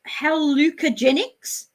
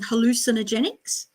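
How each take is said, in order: First: The word is said without the 'cin' syllable. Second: The word is said with the 'cin' syllable. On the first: The speaker calls it wrong. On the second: The speaker calls it right.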